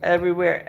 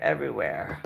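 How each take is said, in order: First: Said in the usual way. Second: Everywhere sinking much lower and softer; low, fading groan. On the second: Real, not acted. Showing her friend the messy closet, sinking low and weary. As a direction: let everywhere drop in despair. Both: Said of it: "I have stuff everywhere".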